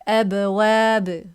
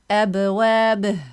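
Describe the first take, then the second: First: The final b bounces and stops without a vowel. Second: The final b is followed by a vowel sound. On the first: The speaker calls it right. "You just let go. Just this bounce" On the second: The speaker calls it wrong. "this is wrong"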